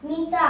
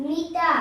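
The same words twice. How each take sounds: Both takes have the same delivery.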